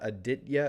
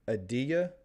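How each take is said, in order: First: The T is pronounced hard and clear. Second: The T is soft, nearly silent. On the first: The speaker calls it wrong. "So it's not a hard T. It's not Aditya" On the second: The speaker calls it right. "So it's kind of a soft T"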